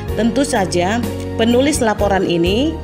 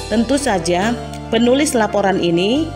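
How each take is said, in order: The two takes are said the same way.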